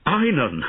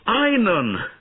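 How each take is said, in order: First: Loud alarmed call of the name; shouting. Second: Much higher, louder panicked cry; desperate shout. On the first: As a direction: cry out for the boy. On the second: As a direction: scream his name in terror. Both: A narrator's reading. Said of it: "shouted Bowen".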